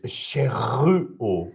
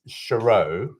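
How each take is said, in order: First: The name is said with a French R. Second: The name is said with English sounds. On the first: "the name in French is Chereau with the R" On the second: "the name in English is Chereau"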